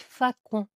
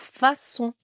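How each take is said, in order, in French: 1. Le c se prononce comme un son k. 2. Le c se prononce comme un son s. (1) "Ou sinon, ça fait facon" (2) "Pareil pour façon"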